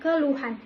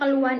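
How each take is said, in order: First: The h sound in the middle is pronounced. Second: The h sound in the middle is dropped. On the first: The speaker calls it right. "yang dimaksud adalah keluhan" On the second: The speaker calls it wrong. "Kata keluhan itu sebenarnya tidak ada dalam K B B I"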